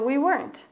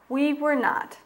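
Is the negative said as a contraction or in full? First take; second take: contraction; full. First: The negative is contracted into one word. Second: The full form is said with separate words.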